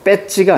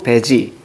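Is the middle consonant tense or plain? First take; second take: tense; plain. First: The middle consonant is tense. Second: The middle consonant is plain. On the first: The speaker calls it wrong. "된소리 쓰지 않는다고 했던 거 기억나죠?" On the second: The speaker calls it right. "배지가 맞아요"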